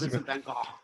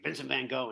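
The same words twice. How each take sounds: First: The name is said with a Dutch pronunciation. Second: The name is said with an American pronunciation. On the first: "I was in Amsterdam, and that's how they pronounced it" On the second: "in America everybody's like"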